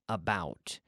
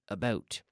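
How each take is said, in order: First: It is said with an American vowel. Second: It is said with a Canadian vowel. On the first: "in the United States they say out, about" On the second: "and I say out, about"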